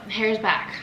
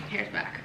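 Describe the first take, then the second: First: Said in the usual way. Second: Hushed, voiceless repeat; near-whisper. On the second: Real, not acted. Home baker repeating that the hair is back, near-whisper. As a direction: drop right down to a soft whisper.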